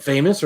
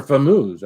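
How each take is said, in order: First: Said in the usual way. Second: "Famoose" said as fuh-MOOZ; alternative pronunciation. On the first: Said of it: "I don't know". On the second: Shown as a demonstration. Host asking chat how the name is said, alternative pronunciation. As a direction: stress the second syllable of "Famoose", rhyming with lose. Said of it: "or Phil got it right".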